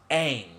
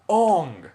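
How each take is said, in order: First: The vowel sounds like the 'a' in cat. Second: The vowel sounds like the 'o' in song. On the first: This is the character's real name. The speaker calls it right. "name of the main character is Aang" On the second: This is how people in the film said the name. The speaker calls it wrong. "people called him Ong"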